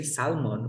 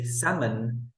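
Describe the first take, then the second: First: Salmon said as "SAL-mon"; L pronounced in salmon. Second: Salmon said as "SAM-un"; silent L in salmon. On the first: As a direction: sound the L in salmon. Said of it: "We never say salmon". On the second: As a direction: leave the L out of salmon. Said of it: "We say salmon". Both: Shown as a demonstration.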